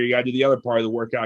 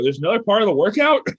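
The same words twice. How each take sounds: First: Said in the usual way. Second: Higher and louder, disbelieving rise at the end; stunned that the workout isn't over; incredulous question. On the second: Retold or imitated. Retold shock at more workout.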